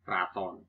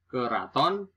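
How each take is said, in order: First: "raton" opening on kr, as kraton; nonstandard pronunciation. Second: "Keraton" in three syllables; standard pronunciation. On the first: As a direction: say kra-ton, lower, for "raton". (ucapkan "raton" sebagai kraton) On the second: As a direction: say ke-ra-ton for "Keraton". (ucapkan "Keraton" dengan e jelas) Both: Shown as a demonstration.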